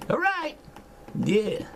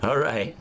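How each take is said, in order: First: Sudden high squeak on All right; high-pitched. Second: Said in the usual way. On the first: Shown as a demonstration. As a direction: jump way up in pitch.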